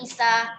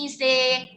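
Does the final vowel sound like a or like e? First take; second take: a; e. First: The final vowel is an open a sound. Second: The final vowel is tilted toward an e sound.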